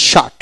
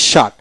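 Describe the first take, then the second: No difference in how they are said.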